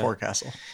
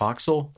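First: The word is said in full as fore-castle. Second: The word is reduced to a short foxel sound. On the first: The speaker calls it wrong. "Not Forecastle" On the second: The speaker calls it right. "Did you know it's pronounced Foxel?"

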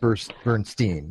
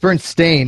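First: The last syllable sounds like 'steen'. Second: The last syllable sounds like 'stain'. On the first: This is how many people remember the name. The speaker calls it wrong. "a lot of people remember it clearly as Steen" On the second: This is how the name is spelled now. The speaker calls it right. "Now is STAIN"

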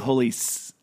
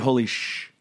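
First: The cut-off word ends in a plain s sound. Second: The cut-off word ends in an sh sound. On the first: The speaker calls it wrong. "you wouldn't say holy s" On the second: The speaker calls it right. "You would say holy sh"

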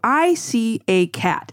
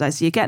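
First: It is said slowly, word by word. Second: It is said at normal conversational speed.

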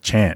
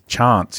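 First: The word is said in a plain accent. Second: The word is said in a posh accent.

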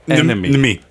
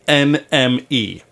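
First: The name is said fast, run together. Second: The name is said slowly, letter by letter.

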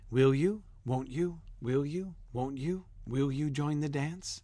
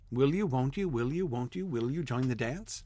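First: The phrases are separated by clear pauses. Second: The phrases run together with no pauses. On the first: The speaker calls it right. "It really wants you to pause" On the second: The speaker calls it wrong. "You almost can't read it fast"

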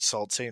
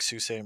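First: The first word sounds like 'salt'. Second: The first word sounds like 'soo'. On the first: The speaker calls it wrong. "so it'd be like calling it Salt Ste. Marie" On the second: The speaker calls it right. "it's spelled just like Sault Ste. Marie"

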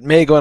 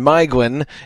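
First: The first vowel sounds like 'ay'. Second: The first vowel sounds like 'eye'. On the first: The speaker calls it wrong. "he says it Maeglin all the way through" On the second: The speaker calls it right. "Maeglin is how you pronounce the name"

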